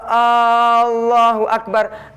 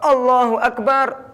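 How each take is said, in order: First: The opening vowel of Allahu is drawn out long. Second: The opening vowel of Allahu is short. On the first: It asks whether God is the greatest. The speaker calls it wrong. "apakah Gusti Allah itu Maha Besar?" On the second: It states that God is the greatest. The speaker calls it right. "Allah Maha Besar"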